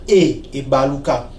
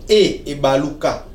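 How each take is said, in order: No difference in how they are said.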